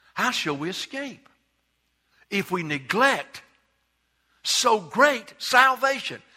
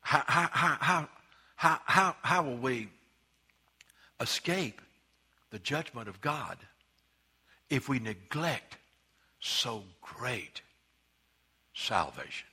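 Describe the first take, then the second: First: Building emphasis. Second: "how" repeated, then "so great salvation" slow, low and soft; hushed repetition. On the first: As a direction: rise and hammer "so great salvation". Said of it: "it didn't say". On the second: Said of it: "Let me tell you". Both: Shown as a demonstration.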